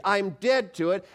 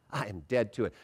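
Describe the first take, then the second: First: Raised, slow, emphatic declaration; enthusiastic. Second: Low, soft, smiling assurance; with a smile. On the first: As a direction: declare it with full conviction. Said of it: "with enthusiasm". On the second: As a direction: say it gently through a smile. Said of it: "say it with a smile". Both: Shown as a demonstration.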